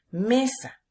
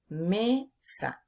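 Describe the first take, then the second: First: Said in the usual way. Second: Mesa broken into me... sa; slow teaching split, me, then sa; syllable by syllable. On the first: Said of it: "me, penúltima sílaba". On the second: Shown as a demonstration. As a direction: separate the two syllables of Mesa with a gap. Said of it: "Sa, última sílaba".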